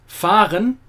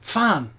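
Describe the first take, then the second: First: The R in the word is clearly pronounced. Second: The R in the word is dropped entirely. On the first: The speaker calls it wrong. "It is not" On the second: The speaker calls it right. "but rather"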